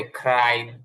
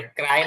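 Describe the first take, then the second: First: ক্রাই drawn out as English "craai"; careful English pronunciation. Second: Said in the usual way. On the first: Shown as a demonstration. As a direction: say ক্রাই slowly, stretching the "ai" glide. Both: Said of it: "ক্রাই না বলে ক্রাই".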